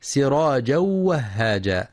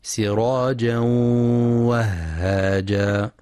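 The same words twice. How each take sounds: First: سراجا وهاجا run together with no nasal hum; merging without ghunna. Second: Slow سراجا وهاجا, held nasal hum into the waw; chanted سراجا وهاجا with nasalised merge; merging with ghunna. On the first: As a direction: join سراجا to وهاجا on a quick, oral w. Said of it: "بإدغام بغير غنة". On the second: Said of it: "ينتبه القارئ لغنة الإدغام". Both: Shown as a demonstration.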